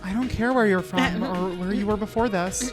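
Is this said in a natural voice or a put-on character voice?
natural. It is said in the speaker's ordinary voice.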